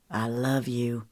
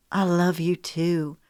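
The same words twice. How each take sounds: First: Low and soft, lovingly; whisper-soft love line; tender male voice. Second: Slow and loving; tender. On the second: Her reply, slowed. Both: A narrator's reading.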